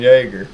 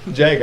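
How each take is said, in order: First: The name begins with a Y sound. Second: The name begins with a J sound. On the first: The speaker calls it wrong. "I've been saying it wrong this whole time. I've been calling him Jaeger. Like Jägermeister" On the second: The speaker calls it right. "So you pronounce the J?"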